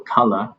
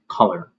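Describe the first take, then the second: First: The ending is light, with a soft schwa. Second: The ending is strong and closed off. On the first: "a lighter pronunciation. They don't really emphasize much at the end" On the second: "in the American accent, much more emphasized color"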